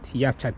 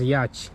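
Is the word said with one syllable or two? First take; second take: two; one. First: The word is said with an extra middle sound. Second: The word is said as one short syllable. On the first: The speaker calls it wrong. "not yachat. I used to pronounce as yachat" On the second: The speaker calls it right. "It's pronounced as yacht"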